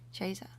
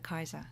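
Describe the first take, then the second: First: It is said the ecclesiastical Latin way. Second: It is said the restored classical Latin way. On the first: "if we're doing ecclesiastical like Latin" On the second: "the restored classical pronunciation also goes in for Kaiser"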